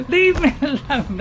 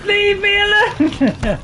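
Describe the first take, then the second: First: Exasperated plea after a laugh; laugh, then protest less forcefully; losing it, laughing. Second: High, loud, drawn-out protest; losing it, yell slowly at your pursuer; panicking yell. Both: Real, not acted. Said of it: "sorry, I'm losing it. I'm panicking".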